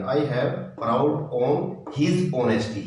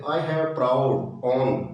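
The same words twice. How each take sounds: First: Slow dictation. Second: I have proud on read very slowly; slow dictation. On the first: Teacher reading completed answer to the class. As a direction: read very slowly, his stressed. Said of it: "his आएगा, his honesty". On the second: Teacher dictating exercise sentence to students. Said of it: "एक example और देख लेते हैं". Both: Shown as a demonstration.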